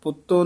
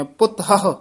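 First: ਪੁੱਤੋ run together as "putto"; wrong pronunciation. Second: "ਪੁੱਤ ਹਹ" in two parts, "putt-hahu"; split pronunciation. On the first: Teacher quotes the common slip for learners, ਪੁੱਤੋ joined up. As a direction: say ਪੁੱਤੋ as one quick word. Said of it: "ਪੁੱਤੋ ਨਹੀਂ ਕਹਿਣਾ". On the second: Teacher shows learners the dash, ਪੁੱਤ then a separate "hahu". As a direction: break after ਪੁੱਤ as at a dash. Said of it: "ਇਹਦੇ ਵਿੱਚ dash ਦੇ ਦੇਣੀ ਹੈ". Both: Shown as a demonstration.

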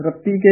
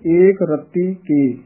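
First: ਰਤੀ ਕੇ as one word; no gap between ਰਤੀ and ਕੇ; run together. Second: Slow, with ਰਤੀ and ਕੇ apart; separated words. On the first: Teacher shows the mistake, ਰਤੀ ਕੇ joined up. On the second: Teacher shows correct reading, slow gap after ਰਤੀ. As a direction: hold ਰਤੀ, pause, then ਕੇ. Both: Shown as a demonstration. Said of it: "ਇਕੱਠਾ ਨਹੀਂ ਬੋਲਣਾ".

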